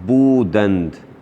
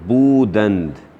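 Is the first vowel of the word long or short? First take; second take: long; long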